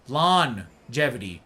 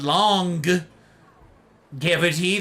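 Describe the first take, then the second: First: The word begins like 'lawn' with a soft g. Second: The word begins like 'long' with a hard g. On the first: The speaker calls it right. "I say lawn, L O N, or uh, L A W N, longevity" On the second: The speaker calls it wrong. "not long cavity. That's silly"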